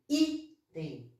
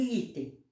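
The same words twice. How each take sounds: First: Item said lower, with the first syllable I leaned on; teacher marking the stressed syllable of item; stressed syllable shown. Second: Said in the usual way. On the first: Shown as a demonstration. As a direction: lean on the I of item. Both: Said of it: "Sílaba tônica de item".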